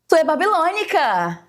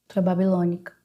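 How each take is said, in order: First: It is said in a happy tone. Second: It is said in a sad tone.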